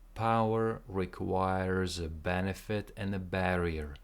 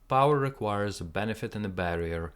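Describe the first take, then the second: First: The sentence is spoken at a slow pace. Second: The sentence is spoken at a faster pace. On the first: "let's try the whole thing together slowly"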